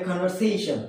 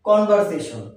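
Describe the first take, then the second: First: "conversation" said as "kon-ver-SAY-shn"; correct pronunciation. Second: "Conversation" said as "kon-bar-se-shon"; common mispronunciation. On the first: Teacher giving learners the proper form, "conversation" as kon-ver-SAY-shn. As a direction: say "conversation" with a clear v and long "say". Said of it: "এর উচ্চারণ হবে". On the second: Teacher showing learners the wrong form, "Conversation" as kon-bar-se-shon. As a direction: say "Conversation" with a b for the v and short "se". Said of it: "not conversation". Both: Shown as a demonstration.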